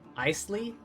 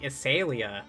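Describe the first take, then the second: First: The word is said with two syllables. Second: The word is said with four syllables. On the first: The speaker calls it wrong. "the most, like, American-sounding pronunciation I've ever heard" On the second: The speaker calls it right. "I thought it pronounced like Isalia"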